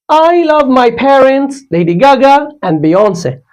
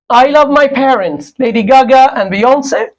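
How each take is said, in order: First: There is a pause between Lady Gaga and Beyonce. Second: Lady Gaga and Beyonce run together without a pause.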